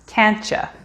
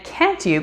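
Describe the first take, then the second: First: The word 'you' is reduced to a 'cha' sound. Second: The word 'you' is said fully and separately.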